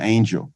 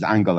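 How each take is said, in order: First: The name sounds like the word angel. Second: The name sounds like the word angle. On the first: The speaker calls it wrong. "I always like to call him angel" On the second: The speaker calls it right. "correct pronunciation is angle"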